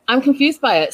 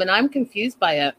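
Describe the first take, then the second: First: "confused" lifted high and leaned on, falling at the end; emphatic repeat. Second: Said in the usual way. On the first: Real, not acted. Recapper repeating her confusion about the show, emphatic.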